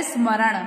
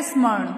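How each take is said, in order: First: "स्मरण" with a full ma-ran; correct pronunciation. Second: "स्मरण" squeezed to ismarn; misspelt pronunciation. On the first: Teacher gives children the correct word, "स्मरण" clearly as smaran. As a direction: say "स्मरण" as is-ma-ran, vowels sounded. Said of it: "होता क्या है?". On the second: Teacher reads out the misspelt word, "स्मरण" mispronounced as ismarn. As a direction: say "स्मरण" as ismarn, middle vowel dropped. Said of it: "यहाँ पर क्या लिखा है". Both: Shown as a demonstration.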